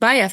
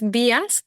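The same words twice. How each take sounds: First: The name is said with English pronunciation. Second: The name is said with Spanish pronunciation. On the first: This is how the English founder likely said it. "he was English, so probably it was pronounced" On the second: This is how people in Spain say it. "here in Spain we say"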